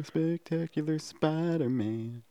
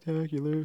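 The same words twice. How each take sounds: First: Spectacular dragged out slowly, each syllable pressed; slow and deliberate on Spectacular Spider-Man; spelled-out emphasis. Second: Said in the usual way. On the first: Shown as a demonstration. Correcting his friend about the show title, slow and stressed. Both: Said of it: "The nineties one?".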